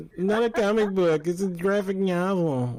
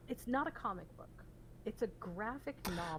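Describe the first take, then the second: First: Mocking nerdy correction, higher and louder; nerd voice. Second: Pedantic correction. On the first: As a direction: mimic a pedantic nerd, higher. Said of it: "Sound like a freaking nerd". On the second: Real, not acted. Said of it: "you sound like a nerd".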